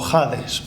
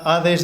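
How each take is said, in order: First: The word starts with a rasping throat sound. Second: The word starts without a rasping throat sound.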